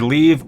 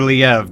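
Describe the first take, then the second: First: The name sounds like the English word 'leave'. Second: The name does not sound like 'leave'. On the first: This is how most voice actors say it. "it's either Leave or Liev" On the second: This is how the character's own voice actor says it. "The guy that's playing Leave pronounces it Liev"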